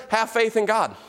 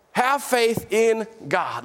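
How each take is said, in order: First: Said in the usual way. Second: "Have faith in God" drawn out slowly, each word given weight; slow, weighty repetition. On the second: Shown as a demonstration. Preacher repeats the verse slowly for the congregation, deliberate and weighty. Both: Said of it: "Let me put it to you like this".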